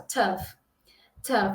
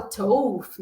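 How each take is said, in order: First: Tough with a short vowel and the gh as f; the correct tough with an f sound; right tough. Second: Tough said with an open o, as in Portuguese; the learner's mistaken tough; wrong tough. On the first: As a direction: end tough on a clean f. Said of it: "ele vai ter um som de F". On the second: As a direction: read tough letter by letter as tof. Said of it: "Não". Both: Shown as a demonstration.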